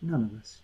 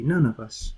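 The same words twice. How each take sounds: First: Repeated, dropping to a hush; echoed much softer. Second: Said in the usual way. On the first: Shown as a demonstration. Preacher repeating to the church, dropping to a hush. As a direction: let it fall away quietly.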